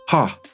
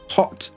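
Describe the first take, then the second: First: The final t is left out entirely. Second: The final t is fully released. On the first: The speaker calls it wrong. "if I just didn't pronounce the T" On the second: The speaker calls it right. "you could pronounce it with the t"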